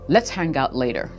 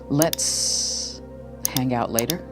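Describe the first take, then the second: First: It is spoken at an ordinary, even pace. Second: It is spoken slower, with a slight pause. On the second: "slow it down by twenty percent and add a slight pause"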